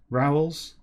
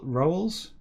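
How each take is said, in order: First: "rowels" with an OW vowel; trying a pronunciation. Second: "rowels" with an OH vowel; trying a pronunciation. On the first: Reader testing another option, "rowels" as ROW-els rhyming with towels. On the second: Reader unsure of an old word, "rowels" as ROH-els. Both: Shown as a demonstration.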